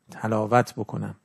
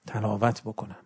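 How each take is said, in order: First: تلاوت drawn out slowly, stressed on its first syllable; repeated slower for emphasis. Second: Said in the usual way. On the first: Shown as a demonstration. Preacher urging listeners to truly recite, slow stressed repeat. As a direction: say تلاوت بکنم again, slower and weightier. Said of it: "نه فقط تو ذهنم بگردونم". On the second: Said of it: "تلاوت بکنم، نه فقط تو ذهنم بگردونم".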